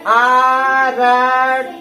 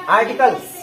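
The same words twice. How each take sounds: First: "आर्टिकल्स" drawn out very slowly, one syllable at a time; अक्षर-अक्षर पढ़ना. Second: "आर्टिकल्स" run together quickly as one word; fast पढ़ना. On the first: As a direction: stretch every letter-sound of "आर्टिकल्स" separately. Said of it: "इसको अब अक्षर पढ़ना है". ("आर्टिकल्स" को एक-एक अक्षर खींचकर, बहुत धीरे) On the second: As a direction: say "आर्टिकल्स" fast, syllables blended. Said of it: "fast पढ़ेंगे". ("आर्टिकल्स" जल्दी से, मिलाकर) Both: Shown as a demonstration.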